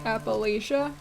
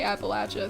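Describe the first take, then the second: First: It is pronounced the northern US way. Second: It is pronounced the southern Appalachian way. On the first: "People up north say Appalachia" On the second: "People south and in the mountains of Appalachia say Appalachia"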